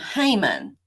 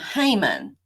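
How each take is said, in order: First: The name is said with an English pronunciation. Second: The same.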